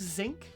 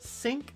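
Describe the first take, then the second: First: The word begins with a buzzing z sound. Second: The word begins with a hissing s sound.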